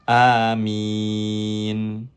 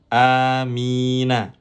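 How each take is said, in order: First: The word ends on n after a long i. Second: The word ends in a short a vowel. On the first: The reader stops on this word. "menjadi amin... maka dipanjangkan terlebih dahulu" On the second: The reading continues without stopping. "asalnya Amina"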